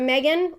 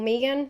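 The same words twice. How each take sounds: First: The name is said in a non-Australian way. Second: The name is said the Australian way.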